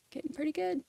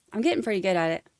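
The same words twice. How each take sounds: First: Softer and higher to self; quiet higher aside. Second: Said in the usual way. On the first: Real, not acted. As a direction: mutter it under your breath, higher.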